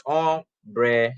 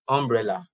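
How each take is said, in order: First: "Umbrella" said very slowly, um-brel-la, each syllable apart; teacher sounding out "Umbrella" beat by beat. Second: Said in the usual way. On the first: Shown as a demonstration. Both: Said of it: "Umbrella is three syllables".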